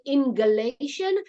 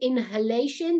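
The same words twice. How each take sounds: First: The word is said with a G sound. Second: The word is said with an H sound. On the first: "they changed the H with G" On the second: "Instead of saying"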